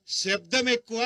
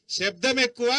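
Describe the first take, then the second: First: Said in the usual way. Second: Loud slogan. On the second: Shown as a demonstration. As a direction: hammer శబ్దం ఎక్కువ home loudly to the crowd. Rally speech, repeated slogan louder.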